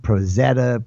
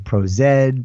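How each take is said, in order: First: The Z is said as zeta. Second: The Z is spelled out as zed. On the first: This is another way some people across the pond say it. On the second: This is how some people across the pond say it.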